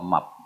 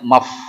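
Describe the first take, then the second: First: The word ends with a p sound. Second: The word ends with an f sound. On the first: The speaker calls it wrong. "Up-nya agak salah" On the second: The speaker calls it right. "mestinya maf"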